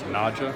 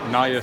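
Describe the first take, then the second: First: The middle consonant sounds like 'j'. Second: The middle consonant sounds like 'y'. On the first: The speaker calls it wrong. "often mispronounced as Naja" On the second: The speaker calls it right. "but it is Sanskrit"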